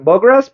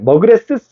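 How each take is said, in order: First: The name ends in a bare s sound. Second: The name ends with an added extra syllable. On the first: The speaker calls it right. "요거는 S만 발음해주면 돼" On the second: The speaker calls it wrong. "이럴 필요 없어"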